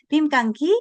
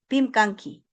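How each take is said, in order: First: It ends with a rise, like a question. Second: It ends with a fall, like a statement.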